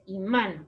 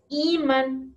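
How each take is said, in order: First: The stress is on the second syllable. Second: The stress is on the first syllable. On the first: The speaker calls it right. "es imán. Por eso tiene este acento" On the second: The speaker calls it wrong. "No es imán"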